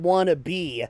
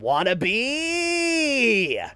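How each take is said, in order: First: The phrase is said quickly and clipped. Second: The phrase is yelled and drawn out long. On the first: "she does not say wanna be like" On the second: "she yells it out like"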